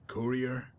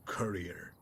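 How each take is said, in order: First: "courier" with a rounded oo in the first syllable, COO-ree-er; first pronunciation of courier. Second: "courier" with an r-coloured first vowel, CUR-ee-er; second pronunciation of courier. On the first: Asking the courier how the title is pronounced, "courier" as COO-ree-er. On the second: Offering the courier the other option, "courier" as CUR-ee-er. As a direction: say "courier" as KER-ee-er, rhyming with furrier. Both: Acted.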